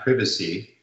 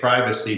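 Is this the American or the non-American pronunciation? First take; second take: non-American; American. First: It is said the non-American way. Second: It is said the American way. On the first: The speaker calls it wrong. "not privacy" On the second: The speaker calls it right. "In the United States, we say privacy"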